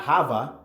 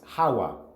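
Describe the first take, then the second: First: The middle consonant is a V sound. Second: The middle consonant is a W sound. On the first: The speaker calls it wrong. "So it's not Hava" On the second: The speaker calls it right. "it's Hawa"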